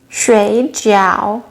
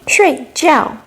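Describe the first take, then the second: First: Both syllables have a low dipping tone. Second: Both syllables have a sharp falling tone. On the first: It means dumpling. "both with third tones" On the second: It means to sleep. "both with fourth tones"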